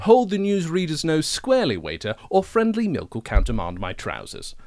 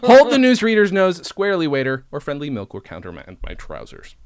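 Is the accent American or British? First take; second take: British; American. First: It is spoken in a British English accent. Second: It is spoken in an attempted American accent. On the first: The speaker calls it right. "That's the line. It's easier" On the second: The speaker calls it wrong. "I sounded like Benedict Cumberbatch trying to be American"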